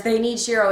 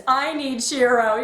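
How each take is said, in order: First: "They" leaned on, need Shiro said evenly; stress on THEY. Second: "I" leaned on, the line drawn out slowly; stress on I. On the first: Fan quoting the team, stress on "They". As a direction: hit the word "They", the others need him. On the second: Fan revealing Keith's real meaning, stress on "I". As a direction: put weight on "I", slow and heartfelt. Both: Shown as a demonstration. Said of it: "it also means".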